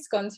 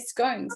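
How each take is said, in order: First: It is said with a non-American pronunciation. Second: It is said with an American pronunciation. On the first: The speaker calls it right. "in America you guys don't say scones" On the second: The speaker calls it wrong. "you say scones"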